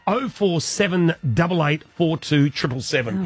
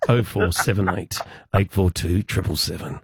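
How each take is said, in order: First: It is said in a normal voice. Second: It is said in a smooth dedication-host voice.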